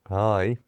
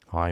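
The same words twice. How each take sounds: First: It is said in a dopey, dim voice. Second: It is said in a moody, sullen voice. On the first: "let's go back to Dopey"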